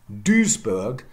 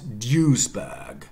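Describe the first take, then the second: First: The first vowel is a rounded front ü. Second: The first vowel is an English you sound. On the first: "Duisburg becomes" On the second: "becomes Duisburg"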